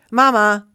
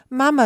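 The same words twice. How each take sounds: First: Loud, raised cry of joy; happy call. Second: High, loud plea; desperate call. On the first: Gosling greets the bear it takes for mother, delighted. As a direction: call out gladly, loud and higher. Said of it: "rief das Tier erfreut". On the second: Gosling left below the tree calls bear, desperate. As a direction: cry out for help, pitched up and loud. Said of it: "rief das Tier verzweifelt". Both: A narrator's reading.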